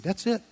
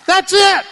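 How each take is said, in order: First: Soft, understated "That's it." with a rising end; much softer quiet "That's it.". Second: "That's it." called out much higher and louder; loud, high preaching shout of "That's it."; emphatic. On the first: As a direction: set "That's it." down gently, almost under breath. Jesus' summary, quiet take. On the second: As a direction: proclaim "That's it." like a preacher's climax. Jesus' summary, loud take. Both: Acted.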